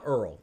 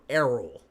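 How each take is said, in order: First: The name is squeezed into one syllable. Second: The name is said with two clear syllables. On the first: The speaker calls it wrong. "It's not Earl" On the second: The speaker calls it right. "It's er, Errol"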